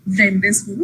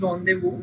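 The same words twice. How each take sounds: First: The letters are sounded just as spelled. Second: It is said the French way, letters silent. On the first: The speaker calls it wrong. "not pronounced at all the way that it is spelled. So it is not uh" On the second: The speaker calls it right. "it is rendezvous"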